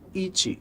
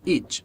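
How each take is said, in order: First: An extra 'ee' vowel follows the final t. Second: The word ends cleanly on the final t. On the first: The speaker calls it wrong. "esse it não existe" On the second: The speaker calls it right. "o som é it"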